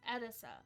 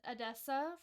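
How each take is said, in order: First: The stress falls on the first syllable. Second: The stress falls on a later syllable. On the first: The speaker calls it right. "like emphasis on the first syllable" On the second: The speaker calls it wrong. "I was saying Edessa for the longest time"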